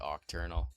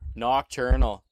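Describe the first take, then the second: First: The word starts with a vowel, no n sound. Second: The word starts with an n sound. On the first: The speaker calls it wrong. "I was gonna say octurnal. Just always joke with my buddy about saying it that way" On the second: The speaker calls it right. "the right way to say it"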